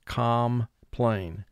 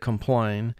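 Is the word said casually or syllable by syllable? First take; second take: syllable by syllable; casually. First: It is said slowly with both syllables fully pronounced. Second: It is said quickly with a reduced first syllable. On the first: This is a careful pronunciation to help with spelling. "we exaggerate the pronunciation a little bit" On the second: This is how it sounds in everyday talk. "in conversation we say complain"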